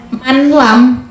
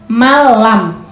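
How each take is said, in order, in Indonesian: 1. Bunyi n diucapkan terpisah sebelum l. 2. Bunyi n menyatu dengan l tanpa dengung sengau. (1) "bukan manlam" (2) "masuk tapi tidak mendengung"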